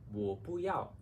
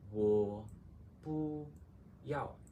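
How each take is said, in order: First: It is said faster. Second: It is said slowly.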